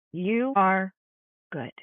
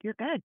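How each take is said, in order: First: "You are good" with "You" stressed and a pause before "good."; slow it down and land "good." firmly; emphatic reassurance. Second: Soft, tender "You're good." said quietly; whisper-close comfort to a struggling friend; gentle reassurance. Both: Shown as a demonstration. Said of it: "just look at her and just say".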